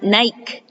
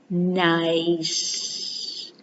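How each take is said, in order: First: The middle consonant is a K sound. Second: The middle consonant is an S sound. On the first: The speaker calls it wrong. "not Nike" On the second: The speaker calls it right. "but nice"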